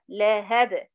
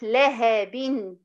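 First: The word ends on a plain b sound. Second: The word ends with an added n sound. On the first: The reader stops on the word. "لو هقف عليها كأن التنوين مش موجود وسكن الحرف الاخير" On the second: The word is read on without stopping. "هي مكتوبة تنوين لكن تنطق نون ساكنة"

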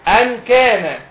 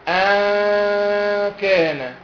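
First: The n is fully pronounced, tongue touching the roof. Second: The n is hidden as a nasal hum.

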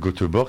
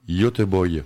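First: The name is said with a French pronunciation. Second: The name is said with a Swedish pronunciation. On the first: The speaker calls it wrong. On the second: The speaker calls it right.

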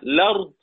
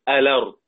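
First: The word starts directly with the l sound. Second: The word starts with a vowel before l. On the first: "إما ببدء باللام مفتوحة" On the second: "وتظل همزة الوصل كما هي"

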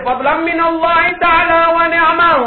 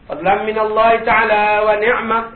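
First: The phrase is shouted loudly. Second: The phrase is said gently and quietly. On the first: The speaker calls it wrong. "tak payah menjerit" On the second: The speaker calls it right.

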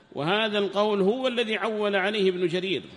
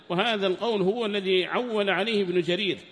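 Both takes have the same delivery.

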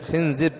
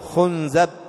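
First: The vowels are i, then i: khinzib. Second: The vowels are u, then a: khunzab. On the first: "وأيضا يجوز كسر الزاي" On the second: "ويجوز ضمها ... وهذه ضعيفة أو غريبة"

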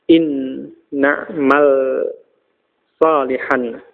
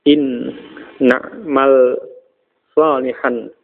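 Both takes have the same delivery.

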